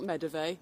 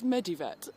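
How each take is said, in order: First: The word ends with an 'eve' sound. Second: The word ends with a 'vet' sound. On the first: The speaker calls it wrong. "I've always pronounced it as Medeve" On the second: The speaker calls it right. "it's Medivet"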